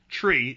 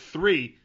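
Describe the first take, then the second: First: The word starts with a hard t sound. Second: The word starts with a soft th sound. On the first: "Jimmy's pronunciation of the word three, tree, is way worse" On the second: "pronunciation of the word three"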